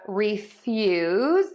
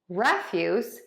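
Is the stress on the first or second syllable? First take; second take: second; first. First: The stress is on the second syllable. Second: The stress is on the first syllable. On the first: To deny something. "which is the verb meaning to deny" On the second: Garbage. "which is a noun meaning garbage"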